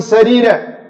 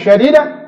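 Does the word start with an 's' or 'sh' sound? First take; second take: s; sh. First: The word begins with a plain s sound. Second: The word begins with an sh sound. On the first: Speak words that are upright and good. The speaker calls it right. "Sadida pakai sin" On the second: Speak words that are harsh. The speaker calls it wrong. "salah bacanya"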